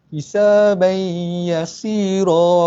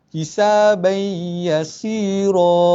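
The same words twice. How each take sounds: No difference in how they are said.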